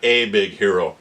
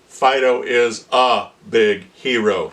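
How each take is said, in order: First: The words are run together with reduced vowels. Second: Each syllable is said slowly and over-enunciated. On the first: The speaker calls it wrong. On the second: The speaker calls it right. "when you're doing the dictation"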